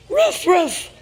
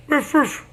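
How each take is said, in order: First: Loud playful woof woof; dog bark imitation. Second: Laughing playful woof woof; dog bark imitation. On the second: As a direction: bark like a puppy while laughing. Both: Parent barking for toddler.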